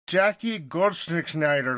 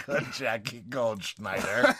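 First: Drawn out slowly, syllable by syllable; carefully sounding out a hard name. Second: Drawn out slowly again, testing the sounds; slow second try at the name; sounding the name out, a touch slower; slow careful name. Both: Shown as a demonstration. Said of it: "That's such a hard name to say".

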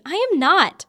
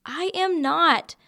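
First: Shouted, high-pitched protest; loud indignant denial. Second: Each word drawn out and high; slow emphatic denial. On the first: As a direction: yell the denial, outraged. Repeating her denial, more upset. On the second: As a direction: deny it slowly, word by word. Denying she is falling for him. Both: Acted.

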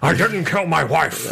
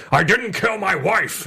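First: Slow, lightly voiced Harrison Ford; Harrison Ford impression. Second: Slow Harrison Ford line read; Harrison Ford impression. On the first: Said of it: "That's my, uh, Harrison Ford". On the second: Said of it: "I always go".

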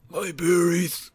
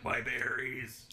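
First: Louder, higher pained yelp; loud pained echo. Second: Slow, strained croaking whimper; burn victim voice. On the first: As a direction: shout it back in mock pain. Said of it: "I was about to say". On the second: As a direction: drag it out in pained croak. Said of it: "I sound like the burn victim from Key and Peele". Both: Retold or imitated.

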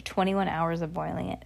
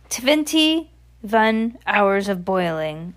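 First: Said in the usual way. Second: Very slow, drawn-out witch voice; accented witch. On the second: Acted. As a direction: stretch it out with a put-on witch accent. Voices the Grand High Witch.

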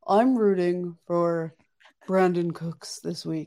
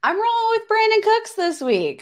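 First: A slightly slowed, lightly voiced imitation of Jake; Jake impression. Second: Said in the usual way. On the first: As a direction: do a half-hearted impression of your cohost. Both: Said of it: "this is my best Jake impression".

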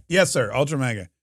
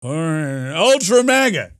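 First: Said in the usual way. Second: Hammed-up old-timer; Joe Biden. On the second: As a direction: repeat it like a doddering president. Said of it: "That's my Joe Biden impression".

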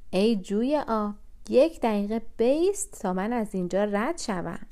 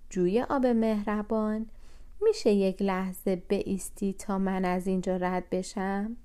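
First: Raised voice. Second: Said in the usual way. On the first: A narrator's reading. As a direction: call out over the noise of the stream. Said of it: "به خاطر سر و صدای آب". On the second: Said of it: "صدای او رو نشنیده".

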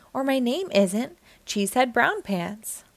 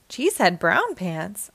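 First: Said in the usual way. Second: Rising, disbelieving echo; incredulous question. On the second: A narrator's reading. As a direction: repeat the name in disbelief. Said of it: "said Sandy".

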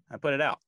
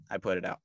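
First: First take pushed up higher and louder; emphatic. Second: Said in the usual way. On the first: Real, not acted. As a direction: punch it out proudly. Repeats the line for emphasis.

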